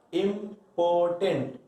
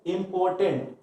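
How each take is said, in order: First: Slow and clear. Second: Said in the usual way. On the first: Shown as a demonstration. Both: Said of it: "ये more than two syllable है".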